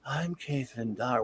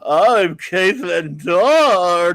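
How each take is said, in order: First: Slow, soft woman's introduction; understated movie-character imitation; film character's voice. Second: Hugely drawn-out, loud hammed-up introduction; loud, very slow mock audiobook voice; George Takei. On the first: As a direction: lightly imitate her slow, quiet introduction. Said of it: "her voice is". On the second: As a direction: stretch each word grandly, mocking a male narrator playing a woman. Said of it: "George Takei saying".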